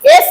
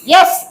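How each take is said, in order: First: The word starts straight with an 'e' vowel. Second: The word starts with a clear 'y' glide. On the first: The speaker calls it wrong. "एस नहीं होगे मैया, एस कहोगे तो एस means होता है गधा" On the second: The speaker calls it right. "यस यस यस यस यस बाई एस, यस ना"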